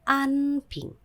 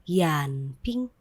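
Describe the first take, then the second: First: The first word starts directly with a vowel. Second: The first word starts with a y sound. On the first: The speaker calls it wrong. "tidak menjadi an ping" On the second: The speaker calls it right. "ini tetap dibaca yan ping"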